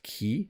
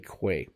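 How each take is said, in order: First: The word sounds exactly like 'key'. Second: The word sounds different from 'key'. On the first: The speaker calls it right. "I think it's supposed to be pronounced key" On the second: The speaker calls it wrong. "but I actually say quay"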